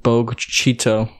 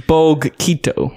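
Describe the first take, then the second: First: "Cheeto" said with CH, CHEE-toh; CH pronunciation. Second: "Quito" said with a hard K, KEE-toh; hard K guess. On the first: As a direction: say "Bogue Cheeto" slowly, CH opening the second word. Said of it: "it probably wouldn't be". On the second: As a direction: guess at "Bogue Quito", opening "Quito" on a K. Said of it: "I don't know why I'm saying Quito". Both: Shown as a demonstration.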